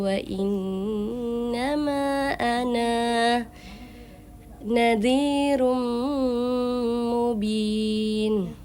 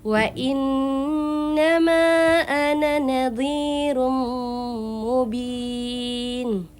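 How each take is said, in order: First: The final vowel of ana is long, then stops. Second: The final vowel of ana is short, run on. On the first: The reader stops at this word. "Ana itu tetap dibaca panjang" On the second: The reading continues without stopping. "jadi dia pendek, gak boleh dipanjangkan"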